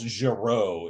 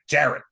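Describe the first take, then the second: First: The name is said with French-style sounds. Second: The name is said with English-style sounds. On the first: The speaker calls it wrong. "not like" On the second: The speaker calls it right. "it's like"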